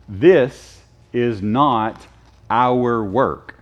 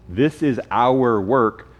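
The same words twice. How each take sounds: First: Slow, separated words with "not" set apart; stress on not. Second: Slow, weighted "is" rising through the phrase; stress on is. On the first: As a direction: state "This is not" slowly, then pause. Deliberate contrast with next sentence. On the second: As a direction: lean on "is" in a slow correction. Deliberate contrast with previous sentence. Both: Shown as a demonstration.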